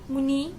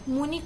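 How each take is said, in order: First: The final i vowel is long. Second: The final i vowel is short. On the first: The speaker calls it wrong. "बोलते हैं बड़ी" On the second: The speaker calls it right. "लिखते छोटी है"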